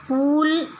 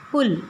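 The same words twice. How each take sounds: First: पुल said as "पूल" with a long, high ऊ; wrong pronunciation. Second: पुल said with a short, light उ as "पुल"; teacher's correct short पुल; correct pronunciation. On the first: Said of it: "ऐसा हम नहीं कहते हैं". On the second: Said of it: "उसका धीमा स्वर होता है". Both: Shown as a demonstration.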